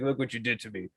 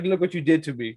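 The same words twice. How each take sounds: First: Much softer, lower repeat; eerie low murmur. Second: Lower, soft accusing line; creepy creature voice. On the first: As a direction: let it sink to a creepy murmur. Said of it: "He's like". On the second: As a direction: accuse her, a bit eerie. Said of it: "he was like". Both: Retold or imitated.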